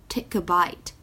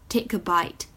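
No difference in how they are said.

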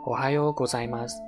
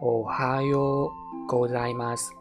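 First: It is said fast. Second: It is said slowly.

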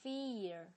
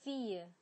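First: It is American, with a strong final r. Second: It is British, with no final r.

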